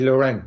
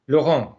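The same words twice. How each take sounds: First: The name is said with English sounds. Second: The name is said with French sounds. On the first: "my first name you can say Laurent. That's fine" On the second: "how do you pronounce it in French?"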